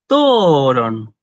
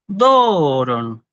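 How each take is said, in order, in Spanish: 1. El tono sube y luego baja en la primera sílaba. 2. El tono sube y luego baja en la primera sílaba.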